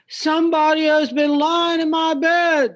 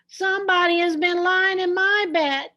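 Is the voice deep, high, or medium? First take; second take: deep; high. First: It is said in a big deep voice. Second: It is said in a tiny high voice.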